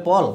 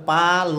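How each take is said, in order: First: পল said with a rounded o, clearly; ending pol. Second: পাল said with an open a, clearly; ending pal. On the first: Teacher showing students the ending of principle as পল. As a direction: say পল with a rounded o sound. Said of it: "উচ্চারণ হবে পল". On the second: Teacher showing students the ending of principal as পাল. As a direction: say পাল with a broad a sound. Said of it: "উচ্চারণ হবে পাল". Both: Shown as a demonstration.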